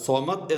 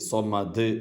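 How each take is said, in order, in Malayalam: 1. അവസാന വ്യഞ്ജനം പ്രതിധ്വനിയില്ലാതെ വെട്ടിച്ചുരുക്കിയാണ് ഉച്ചരിക്കുന്നത്. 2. അവസാന വ്യഞ്ജനം പ്രതിധ്വനിയോടുകൂടിയ മുഴക്കത്തോടെയാണ് ഉച്ചരിക്കുന്നത്. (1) "സുക്കൂനോടുകൂടെ സ്വമദ് എന്ന് പറയരുത്" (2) "മറിച്ച് സ്വമദ് സ്വമദ് എന്ന് പറയണം"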